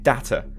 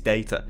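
First: The word has the American pronunciation. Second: The word has the English pronunciation. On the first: "Shouldn't he have been data?" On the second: "That is the English pronunciation, not the American"

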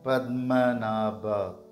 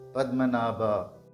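First: It is said slowly. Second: It is said at normal speed.

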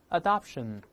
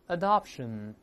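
No difference in how they are said.

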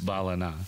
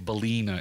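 First: The name is said in the local pronunciation. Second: The name is said in a non-local pronunciation. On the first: The speaker calls it right. "it's Ballina" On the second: The speaker calls it wrong. "not sound like an idiot, and say Ballina"

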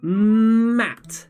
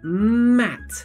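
First: The word is said slowly, sound by sound. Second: The word is said at a medium pace. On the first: "you help me read it very slowly" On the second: "but a little bit faster"

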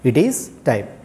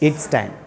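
First: The words it and is are said separately. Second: It and is are joined into one syllable. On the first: The speaker calls it wrong. "we shouldn't say it is time" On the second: The speaker calls it right. "We have to pronounce it it's time"

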